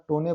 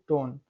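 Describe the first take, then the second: First: टोने with the last e voiced, "tone-ay"; pronounced final e. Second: टोन ending on the n; silent final e. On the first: Teacher showing students the mistake, final e sounded in टोने. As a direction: add a vowel at the end of टोने. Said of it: "ना टोने पढ़ रहे हैं". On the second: Teacher correcting for students, silent e in टोन. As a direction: stop टोन at n, no vowel after it. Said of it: "only टोन". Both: Shown as a demonstration.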